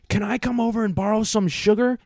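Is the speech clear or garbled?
clear. The words are spoken clearly and normally.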